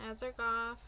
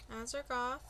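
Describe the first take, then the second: The two takes are said the same way.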